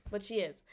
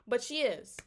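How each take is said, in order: First: She stressed and lower. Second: But punched, falling at the end; stress on but. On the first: Vlogger repeats it, now stressing she. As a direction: shift the weight onto the word she. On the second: Disbelieving vlogger leans hard on But. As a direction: lean on the word But, not she. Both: Shown as a demonstration.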